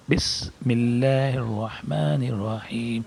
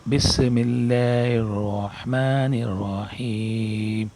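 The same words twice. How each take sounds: First: بسم اللہ الرحمن الرحیم with بسم joined, one clean s sound; slow careful recitation, no extra sin; correct recitation. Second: بسم اللہ الرحمن الرحیم with بس said apart, an added s sound; slow drawn recitation of بسم with an extra sin; wrong extra s sound. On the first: Teacher shows students the right way, slow careful recitation. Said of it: "صحیح طریقہ". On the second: Teacher shows students a common mistake, slow mispronounced recitation. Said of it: "عام طور پر آدمی ایسا پڑھتے ہیں". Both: Shown as a demonstration.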